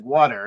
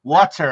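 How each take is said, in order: First: "Water." with a flapped D sound for the T; New Jersey water. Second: "Water." mimicked loud, mocking the Jersey D sound; mock Indiana water. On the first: Retold or imitated. Teased about his accent, saying "Water." his New Jersey way. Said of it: "we have the T to D conversion". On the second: Indiana kids mock his accent, loudly parroting "Water.". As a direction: parrot "Water." back loudly to tease him. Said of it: "they're like, so they're teasing me".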